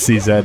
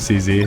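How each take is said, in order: First: The last letter is said as 'zed'. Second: The last letter is said as 'zee'. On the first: "in my head, that's C Z" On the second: "never C Z"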